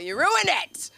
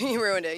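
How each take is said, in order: First: High, loud comic blame; mock outraged accusation. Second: Said in the usual way. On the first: Comics turning on their families, mock outraged. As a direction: throw the blame out in a hammed-up yell.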